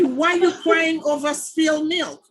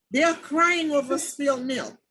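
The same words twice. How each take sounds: First: Raised, higher retold rebuke; mock scolding. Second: Said in the usual way. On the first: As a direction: tell them off loudly, half-playing. Scolding complaining friends, retold.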